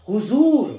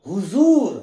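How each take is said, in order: The two takes are said the same way.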